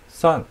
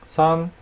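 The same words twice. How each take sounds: First: The pitch falls sharply from high. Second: The pitch stays high and level.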